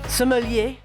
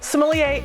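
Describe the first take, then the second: First: It is said with a French pronunciation. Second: It is said with an English pronunciation.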